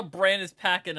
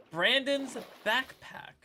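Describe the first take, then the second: First: Said in the usual way. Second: BACKPACK said slowly and carefully, raised pitch; slow, careful retry after a tongue slip; deliberately slow. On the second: Real, not acted. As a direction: say "Brandon's backpack" slowly, word by word. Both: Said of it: "I had to say it slowly".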